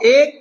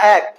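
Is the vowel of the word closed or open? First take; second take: closed; open. First: The vowel is a closed e sound. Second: The vowel is an open ae sound. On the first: The speaker calls it wrong. "এক না" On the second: The speaker calls it right. "আমরা উচ্চারণে এ করি"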